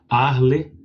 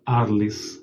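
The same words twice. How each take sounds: First: The final S is silent. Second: The final S is pronounced. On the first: It follows the French way. "provavelmente o francês como se não se fala o S no final" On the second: It follows the Portuguese way. "mas podemos também falar Arles, porque nós estamos no Brasil"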